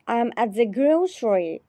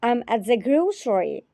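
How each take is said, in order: Both takes have the same delivery.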